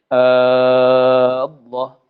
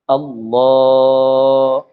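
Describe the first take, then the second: First: The first vowel is held long. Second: The l sound is held long. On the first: The speaker calls it wrong. "A tu jangan panjang. Kalau panjang tak jadi" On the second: The speaker calls it right. "Adapun lam tu bolehlah"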